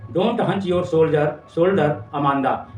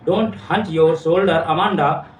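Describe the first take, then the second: First: Very slow, drawn-out reading of the poem line; slow recital. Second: Very slow, each word of the poem line drawn out; slow recital. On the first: Teacher reading mother's scolding to students, very slow. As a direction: spell out the mother's words slowly for the class. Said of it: "वो कहती है". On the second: Teacher reading mother's scolding line to students, slow and deliberate. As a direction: read the scolding line slowly for the class. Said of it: "सिखा रही है". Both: Shown as a demonstration.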